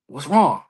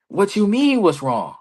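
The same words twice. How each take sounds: First: Said in the usual way. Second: Retold heated retort, starting high. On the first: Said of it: "I'm heated. Roosevelt's like". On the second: Wrestler retelling his comeback to a colleague, heated. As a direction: throw the question back, mock indignant. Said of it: "I'm heated".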